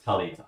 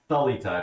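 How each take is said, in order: First: "Talita" begun with a hard T; plain T pronunciation. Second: "Thalita" begun with an English TH sound; TH pronunciation. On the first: Correcting the character's name for viewers, hard T. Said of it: "it's Talita". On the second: Showing the wrong way to say a character's name, TH sound. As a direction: say "Thalita" with TH as in thin. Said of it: "it's not Thalita". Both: Shown as a demonstration.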